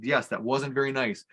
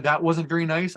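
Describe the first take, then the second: First: Put-on slow, calm agreement with a child; gently validate an upset child, retold; unhurried, understated reassurance; affirming reply. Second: Mildly voiced child's complaint; a hint of a wronged little girl; upset little girl. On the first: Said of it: "affirm everything she said". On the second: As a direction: lightly imitate a hurt child protesting. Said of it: "When she said".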